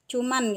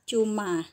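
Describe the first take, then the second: First: The word ends with an added n sound. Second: The word ends on a vowel, without n. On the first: It is the everyday informal form. The speaker calls it wrong. "dalam bahasa keseharian kita sering mengucapkan cuman" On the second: It is the standard form. The speaker calls it right. "yang benarnya itu adalah cuma"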